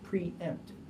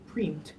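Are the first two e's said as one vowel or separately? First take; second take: separately; one vowel. First: The two e's are said as two vowels. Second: The two e's merge into one vowel. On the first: The speaker calls it right. "you separately pronounce the first two e's" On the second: The speaker calls it wrong. "They're not pronounced as preempt"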